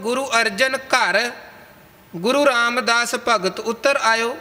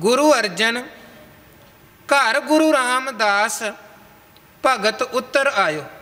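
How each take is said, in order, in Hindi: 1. पहला विराम 'ghar' के ठीक बाद आता है। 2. पहला विराम 'Arjan' के ठीक बाद आता है। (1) "विश्राम घर पढ़न तो बाद ला दिता" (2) "घर तो पहला विश्राम लाउणा सी"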